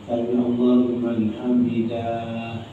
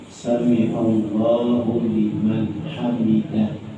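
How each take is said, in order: First: The 'da' syllable of hamidah is drawn out long. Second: The 'da' syllable of hamidah is kept short. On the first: The speaker calls it wrong. "terdengar bunyi panjang pada huruf dahnya" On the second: The speaker calls it right. "bacaannya sami Allahu liman hamidah"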